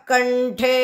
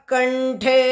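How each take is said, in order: Both takes have the same delivery.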